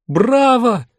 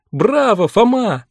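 First: Loud cheering shout. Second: Loud cheer with his name; shout. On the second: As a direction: shout it like a fan. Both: A narrator's reading. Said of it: "закричала Линда".

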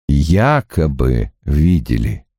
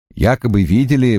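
First: Якобы drawn out slowly and set apart, low; low, slow, pointed «якобы видели»; stress on якобы. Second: Said in the usual way. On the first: A narrator's reading. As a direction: lean on «якобы» to underline the doubt. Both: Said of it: "подчеркнул Страйк".

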